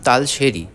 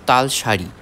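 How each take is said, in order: First: The middle syllable has an 'e' vowel. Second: The middle syllable has an 'a' vowel. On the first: The speaker calls it wrong. "উচ্চারণে ভুলের জন্য আমি আপনাদের কাছে ক্ষমা প্রার্থী" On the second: The speaker calls it right. "আমি জানতাম না এই জায়গাটির নাম তালসারি"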